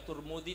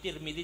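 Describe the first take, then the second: First: The first vowel sounds like u. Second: The first vowel sounds like i. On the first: "Boleh dibaca Turmudi" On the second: "Tirmidzi juga boleh"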